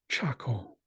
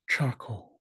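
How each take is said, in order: No difference in how they are said.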